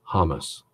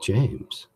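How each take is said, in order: First: The name begins with an H sound. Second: The name begins with a J sound. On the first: This is how the other man says his name. "He pronounces his name Hamas" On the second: This is the speaker's own way of saying it. "I call myself James"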